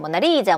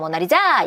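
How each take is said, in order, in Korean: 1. 강세는 세 번째 음절에 있어요. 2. 강세는 네 번째 음절에 있어요. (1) "세 번째야" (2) "네 번째야"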